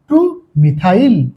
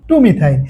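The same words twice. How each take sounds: First: TU MITHAIL (টু methyl) drawn out slowly, part by part; slow, deliberate টু methyl for learners; slow dictation. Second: Said in the usual way. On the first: Shown as a demonstration. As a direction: say টু methyl slowly, with টু set apart. Teacher spells out name, then repeats.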